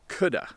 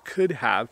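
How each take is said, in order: First: The words are squeezed together into 'coulda'. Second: Both words are said fully and separately. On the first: "we usually say coulda" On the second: "we take the words could have"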